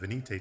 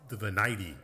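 First: It is pronounced with Spanish-style vowels. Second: It is pronounced with English-style vowels. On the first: "I usually default to kind of using more of a Spanish pronunciation" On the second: "folks from England, they always insist that it's the Venite"

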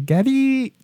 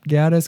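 First: The name ends without any s sound. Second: The name ends with an audible s sound. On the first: It is how the game itself says it. "But in the game, they say Gaddy" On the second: It follows the written spelling. "I'm pronouncing it Gaddis because that's how it's spelt"

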